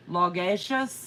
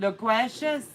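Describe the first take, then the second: First: Logacious said slowly with a rising question; puzzled first try at Logacious; unsure guess. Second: Loquacious said with a kw sound, rising; second try, Loquacious with kw; corrected guess. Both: Real, not acted.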